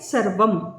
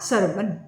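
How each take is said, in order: First: The word ends with an m sound. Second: The word ends with an n sound. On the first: This is the word in its basic form. "अब शब्द क्या है?" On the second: This is how it is pronounced in the recited verse. "लेकिन यहां उच्चार करते वक्त क्या कहा?"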